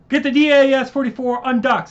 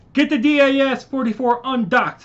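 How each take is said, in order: First: Higher, louder shouted order; ordering his brother to undock, retaken; urgent shout. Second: Higher, louder shouted order; ordering his brother to undock; urgent shout. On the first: Retake after outage. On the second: Urgent order while fighting. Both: Acted. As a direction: bark the order over the battle.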